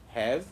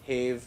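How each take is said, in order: First: The vowel is short, as in cat. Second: The vowel is long, as in cave. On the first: The speaker calls it right. "These are are, have" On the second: The speaker calls it wrong. "No, it is not like that"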